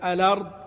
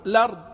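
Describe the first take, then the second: First: The word begins with a vowel before the L. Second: The word begins directly with the L sound. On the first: "يبدأ بهمزة الوصل" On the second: "ممكن تقول على طول"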